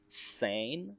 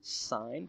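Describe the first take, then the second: First: The vowel sounds like the one in 'day'. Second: The vowel sounds like the one in 'eye'. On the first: "It might be pronounced something else" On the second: "But I like to pronounce it sign"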